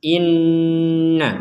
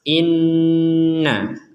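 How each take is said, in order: No difference in how they are said.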